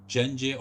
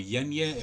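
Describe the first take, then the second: First: The name begins with a hard G sound. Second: The name begins with a Y sound.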